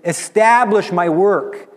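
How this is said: It is said with intense passion. "He says it with passion"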